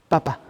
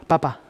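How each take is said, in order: No difference in how they are said.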